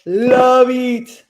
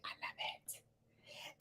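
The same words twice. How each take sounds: First: Loud, high, sustained burst of enthusiasm; emphatic gushing. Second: Slow, drawn-out whisper; gushing whisper. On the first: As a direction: belt it out with delight. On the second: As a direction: whisper it slowly, savouring every word. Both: Real, not acted. Gushing over a favourite show.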